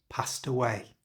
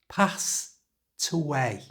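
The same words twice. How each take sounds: First: The phrase is said at normal conversational speed. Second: The phrase is said slowly and drawn out. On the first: "And at normal speed" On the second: "So slowly it sounds like this"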